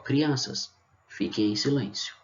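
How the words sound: There is a pause after the first word. "Eu poderia colocar uma vírgula aqui"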